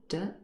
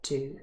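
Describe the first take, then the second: First: The word is unstressed and reduced to a short sound. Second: The word is stressed with its full vowel. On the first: "The first one is unstressed, it's in its weak form" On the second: "The second one is stressed, and it's its full form"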